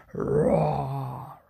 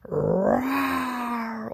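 First: A deep, louder bear roar; growl-roar low like a bear; lower bear roar. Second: A big hammed-up bear roar. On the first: Acted. Old Bear roars near the oven, low bear roar. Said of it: "Old Bear followed his nose". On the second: Old Bear roars at Baba Braina, bear roar. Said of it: "Old Bear roared".

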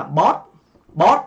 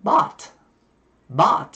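First: "bought" read with a Vietnamese rising o; Vietnamese-style short, rounded "bought"; Vietnamese o vowel. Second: American "bought" with a vowel halfway between ah and o; American open-vowel "bought"; American accent. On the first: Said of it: "chúng ta đọc cái chữ đầu tiên là". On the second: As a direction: open up "bought" toward "baht", American style. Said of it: "giọng Mỹ thì sẽ đọc như thế này". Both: Shown as a demonstration.

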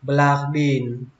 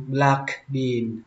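First: "black bean" with no audible k in "black"; k left unreleased. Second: "black bean" with the k of "black" sounded; more precise pronunciation. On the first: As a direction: run "black" into "bean" without the k. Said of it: "không cần chữ cờ cuối cũng được". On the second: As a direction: release the k before "bean" in "black bean". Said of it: "mà chuẩn xác hơn thì". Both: Shown as a demonstration.

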